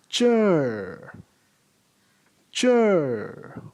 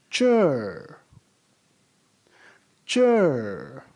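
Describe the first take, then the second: No difference in how they are said.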